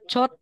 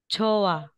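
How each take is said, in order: First: A t sound closes the first syllable. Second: The syllables run together with no t. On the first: The speaker calls it wrong. "hindi po siya chot" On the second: The speaker calls it right. "magiging chowa"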